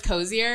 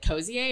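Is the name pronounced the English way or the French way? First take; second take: English; French. First: The name is pronounced the plain English way. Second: The name is pronounced the French way. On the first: "It started off as Cozier" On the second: "That sounds more luxe. It's French"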